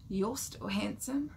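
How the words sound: It sounds creepy and stalker-like.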